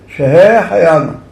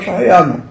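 First: The word is said with great joy. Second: The word is said flatly, without joy. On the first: The speaker is truly grateful to be alive. The speaker calls it right. "יברך בשמחה רבה" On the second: The blessing is recited by rote. The speaker calls it wrong. "לא שחיינו"

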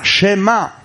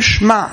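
First: A short vowel follows the first consonant. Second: The first consonant has no vowel after it. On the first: The speaker calls it right. "זה שווה נע, לא שווה נח" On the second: The speaker calls it wrong. "לא אומרים שמע"

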